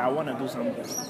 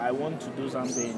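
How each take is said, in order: First: The words 'want to' are shortened to 'wanna'. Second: The words 'want to' are said in full. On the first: This is how American speakers say it. "American can say" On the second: This is how Ghanaian speakers say it. "we don't shorten our English words"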